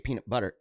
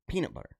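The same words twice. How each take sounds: First: The stress falls on the word butter. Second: The stress falls on the word peanut. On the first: "So they stressed the butter instead of the peanut" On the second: "Instead of peanut butter"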